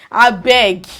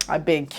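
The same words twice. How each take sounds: First: Louder, forceful "I beg"; emphatic dismissal. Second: Low, soft "I beg"; quiet dismissal. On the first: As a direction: repeat it with real force. Same words repeated with force. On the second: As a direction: brush it off under your voice. Dismissive aside, then repeated emphatically. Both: Real, not acted.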